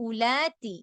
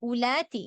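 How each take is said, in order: No difference in how they are said.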